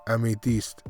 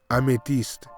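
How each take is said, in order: Both takes have the same delivery.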